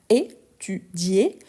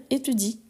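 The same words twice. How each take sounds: First: "étudié" slowly, syllable by syllable, ending in é; slow teaching "étudié" with a marked é ending; marked final é. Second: "étudie" ending on an i sound, no é; unaccented "étudie", final é dropped to leave i. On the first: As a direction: draw out "étudié" and sound the last é clearly. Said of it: "on doit bien marquer l'accent aigu". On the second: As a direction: say "étudie" with i as the last vowel. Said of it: "on va prononcer le i". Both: Shown as a demonstration.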